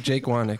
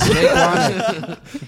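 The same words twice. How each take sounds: First: Said in the usual way. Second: High, slow, laughing drawl. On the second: Pretend. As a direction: stretch the name out while laughing. Mocking the name with a laugh.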